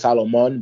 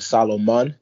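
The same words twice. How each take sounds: First: The name is said with a standard accent. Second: The name is said with a Jamaican accent. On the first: This is how the spelling suggests it is pronounced. "it should be pronounced like Solomon" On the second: This is how the name is actually pronounced. "It's pronounced like Solomon, like I'm Jamaican"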